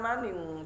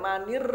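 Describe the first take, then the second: First: The word ends with an ng sound. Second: The word ends with a clear r sound. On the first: The speaker calls it wrong. "bukan maning, jangan dibuat-buat" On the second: The speaker calls it right. "Bisa ngomong R gak? ... Nah ya manir"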